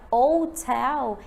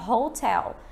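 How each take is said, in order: First: The word begins directly with a vowel sound. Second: The word begins with an audible h sound. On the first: The word starts with a vowel sound, so it takes 'an'. "Se a região pronuncia hotel, eles vão dizer an hotel" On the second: The word starts with a consonant sound, so it takes 'a'. "as pessoas pronunciam hotel. Aí, no caso, eu tenho que falar a hotel"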